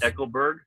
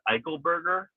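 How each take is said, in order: First: The name ends with the sound 'berg'. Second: The name ends with the sound 'berger'. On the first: The speaker calls it wrong. "not Eichelberg" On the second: The speaker calls it right. "it's Juan Eichelberger"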